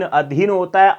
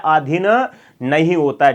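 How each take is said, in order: First: अधीन with short अ at start; correct form. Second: आधीन with long आ, rising; wrong form. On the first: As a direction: give the right form अधीन. (सही रूप अधीन, छोटा अ) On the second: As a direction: set आधीन up as the mistake. (आधीन को गलत रूप की तरह बोलना) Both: Shown as a demonstration.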